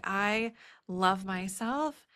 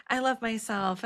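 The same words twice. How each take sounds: First: Slow, sincere, I love myself, landing on myself; mean it, from the inside; heartfelt affirmation after naming every fear; sincere self-love. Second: Breezy, higher, throwaway I love myself; shallow self-love. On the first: Real, not acted. Deep self-love after all fears. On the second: Retold or imitated. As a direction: say it lightly, like a slogan. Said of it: "way more surface level".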